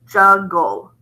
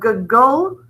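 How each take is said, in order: First: The g sound is pronounced only one time. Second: The g sound is pronounced twice, once per syllable. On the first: The speaker calls it right. "we only say it once" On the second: The speaker calls it wrong. "instead of juggle"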